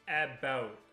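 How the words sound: The first vowel sounds like 'eh'. This is the Canadian way of saying it. "we say kind of the E H, like the A"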